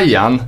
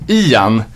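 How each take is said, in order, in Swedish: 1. Namnet börjar med ett 'ai'-ljud. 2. Namnet börjar med ett 'ee'-ljud. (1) "Det är inte Ian som är aj" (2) "samma uttal som på den här ledsna åsnan Ior"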